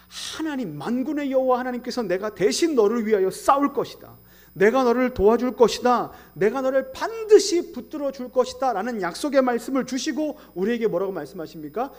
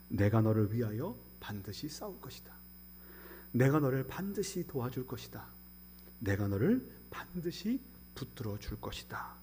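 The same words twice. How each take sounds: First: Loud, higher, ringing proclamation; forceful preaching. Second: Softer, lower, gentle reassurance; tender promise. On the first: Pastor proclaiming God will fight for them, loud. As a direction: proclaim God's promise with full force. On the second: Pastor softly repeating God's promise to comfort. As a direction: comfort them quietly with each line. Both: Acted.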